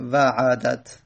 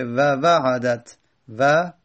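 First: Said in the usual way. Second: و وعدت said very slowly, each sound apart; slow syllable demo. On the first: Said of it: "همین وعدت بگیم". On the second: Shown as a demonstration. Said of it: "بعد بگیم وعدت".

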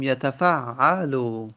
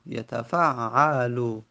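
First: Said in the usual way. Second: یتفعلو said very slowly, syllable by syllable; slow demonstration. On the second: Shown as a demonstration. Teacher repeating the present-tense form slowly for students. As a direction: stretch out یتفعلو so each vowel is heard.

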